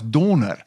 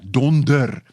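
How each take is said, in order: First: The second d sound is dropped entirely. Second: The second d sound is clearly pronounced. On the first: "So reeds sagter, daai harde d, die tweede d is al weg" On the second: "in Afrikaans spel ons dit D O N D E R"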